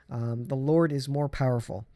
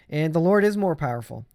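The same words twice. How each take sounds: First: Said in the usual way. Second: Louder, hitting Lord firmly; emphatic repeat. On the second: Shown as a demonstration. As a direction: drive it home the second time.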